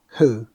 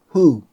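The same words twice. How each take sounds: First: The vowel is said with lips barely rounded. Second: The vowel is said with lips strongly rounded. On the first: The speaker calls it wrong. "I sometimes end up doing just who" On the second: The speaker calls it right. "you should shape your lips like when you are kissing, like this"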